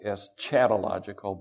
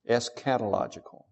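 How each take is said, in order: First: The consonant after 'es' is a ch sound. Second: The consonant after 'es' is a k sound. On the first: The speaker calls it wrong. "I know it looks like eschatological" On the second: The speaker calls it right. "pronounced eschatological as if it was a K and not a CH"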